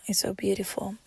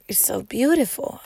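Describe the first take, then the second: First: Soft unvoiced repeat; whispered echo. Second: Said in the usual way. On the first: Real, not acted. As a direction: whisper it to yourself.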